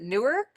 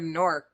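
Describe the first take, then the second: First: The name is said with two syllables. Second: The name is said as one syllable, like stork.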